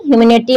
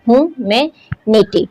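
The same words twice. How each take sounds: First: Said in the usual way. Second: "ह्यूमैनिटी" slowly divided, hu, ma, then nity; pauses inside "ह्यूमैनिटी", one chunk after another; broken into syllables. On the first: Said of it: "word को तोड़कर पढ़ते हैं". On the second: Shown as a demonstration. Teacher showing students the syllables, "ह्यूमैनिटी" slow and split. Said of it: "number of syllable जो हैं वो four हैं".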